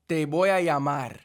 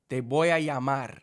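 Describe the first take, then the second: Both takes have the same delivery.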